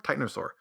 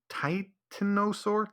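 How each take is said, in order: First: Said in the usual way. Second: "titanosaur" slow, rising in doubt; unsure drawn out. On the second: Shown as a demonstration. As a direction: stretch out "titanosaur" questioningly.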